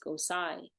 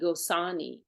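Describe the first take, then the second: First: No clear n sound comes before the final vowel. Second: A clear n sound comes before the final vowel. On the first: The speaker calls it right. "but it's Gosai" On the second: The speaker calls it wrong. "a lot of the Westerners, they say Gosani"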